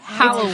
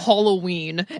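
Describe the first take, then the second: First: The first syllable sounds like 'hal'. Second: The first syllable sounds like 'hollow'. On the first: The speaker calls it right. "and then it's actually" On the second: The speaker calls it wrong. "It's we go"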